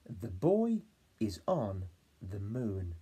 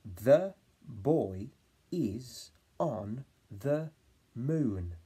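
First: Put-on the boy is on the moon slowly; slow whole sentence. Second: Put-on the boy, is on the, moon in chunks; word by word. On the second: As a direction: say it in spaced chunks. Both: Shown as a demonstration. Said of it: "my turn".

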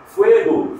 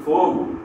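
First: "fuego" with a strong Spanish "we" glide; "fuego" said FWE-go, louder; Spanish UE diphthong. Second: Said in the usual way. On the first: Shown as a demonstration. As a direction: punch the ue in "fuego". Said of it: "em espanhol ditonga para o E". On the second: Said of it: "que em português é o".

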